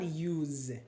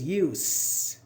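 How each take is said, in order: First: The word ends with a buzzing z sound. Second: The word ends with a hissing s sound. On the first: The speaker calls it wrong. "this is not use, unlike what you said" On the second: The speaker calls it right. "It is use. Because it's a noun here"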